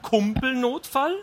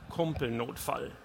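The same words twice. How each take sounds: First: High, drawn-out disbelieving question; incredulous echo. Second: Said in the usual way. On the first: A narrator's reading. Wife questions husband's buddy-emergency excuse, incredulous. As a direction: stretch the word upward in disbelief.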